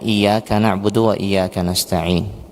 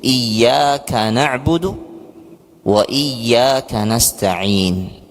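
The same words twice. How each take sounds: First: The y in iyyaka is short and single. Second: The y in iyyaka is pressed and doubled. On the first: We worship the sun and ask the sun for help. The speaker calls it wrong. "dibaca tanpa tasdid" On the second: You alone we worship and ask for help. The speaker calls it right. "jadi ditekan. Iya, jadi ada tasydidnya di situ"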